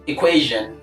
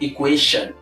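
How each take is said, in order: First: The middle consonant is a voiced zh sound. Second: The middle consonant is a voiceless sh sound. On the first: The speaker calls it right. "The right pronunciation is equation" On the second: The speaker calls it wrong. "not equation"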